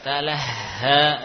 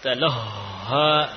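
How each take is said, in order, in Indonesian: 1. Kata itu diucapkan dengan bunyi ringan, tipis. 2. Kata itu diucapkan dengan bunyi berat, suara dinaikkan. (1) "ringan, ringan" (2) "tidak perlu yakni suaranya dinaikkan. Taloha, ya. Taloha tidak perlu"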